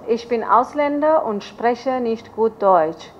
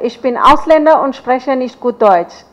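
First: It is said at a slower pace. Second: It is said at a faster pace.

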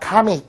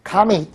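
First: It is said as two syllables, ka-mit. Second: The same.

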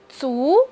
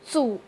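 First: The pitch rises from mid to high. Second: The pitch dips low, then rises. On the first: "它的二声是足" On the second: "它的三声是组"

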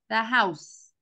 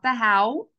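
First: The word ends with a clear 's' sound, as in 'house'. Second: The word ends without an 's' sound, like 'how'. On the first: The speaker calls it right. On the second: The speaker calls it wrong. "not the how"

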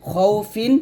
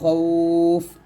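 First: The word ends with an -in ending. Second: The word ends with a bare consonant. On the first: The reading continues past this word. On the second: The reading stops on this word.

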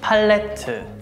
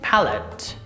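First: It is said with Korean pronunciation. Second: It is said with British pronunciation. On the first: "Korean pronunciation" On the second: "British pronunciation"

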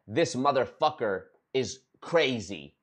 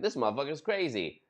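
First: It is said in a grave, serious tone. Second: It is said in a light, joking tone. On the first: The remark sounds like a serious accusation. "they'll say it like this. ... They're making it sound worse than it is" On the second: The remark was a casual joke. "Maybe I was on a live stream joking around being like"

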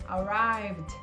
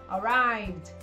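Both takes have the same delivery.

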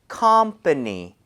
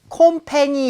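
First: The first vowel is said with an open mouth. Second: The first vowel is said with a narrow mouth. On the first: The speaker calls it right. "앞쪽에 입 모양 좀 벌리시는 게 좋을 것 같아요" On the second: The speaker calls it wrong. "컴패니 이렇게 하지 마시고요"

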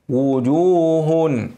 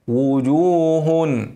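Both takes have the same delivery.

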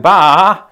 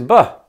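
First: The final vowel is drawn out and long. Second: The final vowel is short and reduced. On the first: The speaker calls it wrong. "don't elongate that final vowel as if you were a sheep. There's no ba" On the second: The speaker calls it right. "It is buh"

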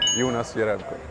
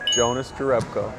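First: The name is said with a Swedish pronunciation. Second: The name is said with an American pronunciation. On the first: "In Swedish" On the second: "In US"

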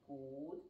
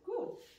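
First: It is said in a calm, steady tone. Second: It is said in a warm, praising tone. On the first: Keep doing the behavior until released. "if I want to mark the continuation, I say good" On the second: Well done, but no treat this time. "But if I'm just praising, I say good"

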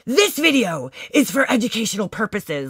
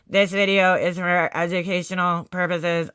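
First: It is read with lively rises and falls. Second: It is read flatly, like a robot. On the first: The reader seems to own the words. The speaker calls it right. "he had such like a, a character while he was reading" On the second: The reader does not own the words. The speaker calls it wrong. "most kids sound very robotic when they're reading"

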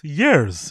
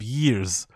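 First: The vowel sounds like 'ar', as in yarrs. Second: The vowel sounds like 'ear', as in years. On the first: The speaker calls it wrong. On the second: The speaker calls it right. "Instead of years"

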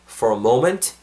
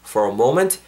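The two takes are said the same way.

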